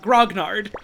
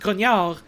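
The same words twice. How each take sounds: First: The word is said with English spelling pronunciation. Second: The word is said with French pronunciation. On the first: "primarily know English will understandably pronounce it grognard" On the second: "it's a French word, so it's pronounced grognard"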